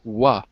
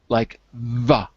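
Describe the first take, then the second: First: It begins with a rounded-lips W sound. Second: It begins with lip-on-teeth V sound. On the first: The speaker calls it wrong. "you're saying it like a W" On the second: The speaker calls it right. "your bottom lip on your top teeth"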